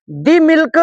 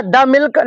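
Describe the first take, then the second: First: "The" said as "thee" in "The milk", the wrong way; wrong pronunciation. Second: "the" said as short "thuh" in "the milk"; correct pronunciation. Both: Shown as a demonstration. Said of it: "नहीं होगा".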